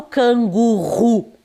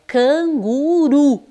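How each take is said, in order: First: "canguru" dito com RR forte, como "cangurru"; R forte errado. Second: "canguru" com R de um toque leve; R brando. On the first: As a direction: troque o R leve de "canguru" por um R aspirado. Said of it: "e eu não falo canguru". (erre forte demais em "canguru") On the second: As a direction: corrija para "canguru" com R suave, vogais alongadas. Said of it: "É o R brando". (erre brando em "canguru") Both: Shown as a demonstration.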